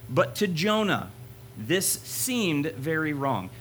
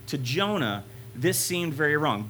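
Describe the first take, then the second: First: Slow, weighty reading of the key line; slow emphatic reading. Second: Said in the usual way. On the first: Shown as a demonstration. Preacher reading the key verse slowly to the youth. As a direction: lean on each word, slowly. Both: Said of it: "Here's, here's the part".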